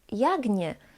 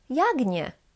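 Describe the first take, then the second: First: The end of jak is a voiced g. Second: The end of jak is a voiced g.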